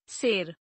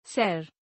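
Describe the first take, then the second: First: शेर said "ser", s and narrow e; mispronounced. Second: Said in the usual way. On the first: Shown as a demonstration. Teacher showing an e error, mispronounced with narrow e. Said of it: "अशुद्ध". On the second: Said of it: "शुद्ध".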